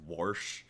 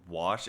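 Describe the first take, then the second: First: The word is said with an added r sound. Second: The word is said with no r sound.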